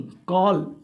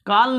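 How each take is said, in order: First: कॉल with a rounded aw, "kawl"; correct vowel demo. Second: कॉल said with long aa, like "kaal"; wrong vowel demo. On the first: Teacher giving students the correct word, carefully pronounced. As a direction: model कॉल with rounded aw, falling. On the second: Teacher showing students the mistake, mispronounced. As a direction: demonstrate the mistaken कॉल with an open aa. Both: Shown as a demonstration. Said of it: "कॉल नहीं".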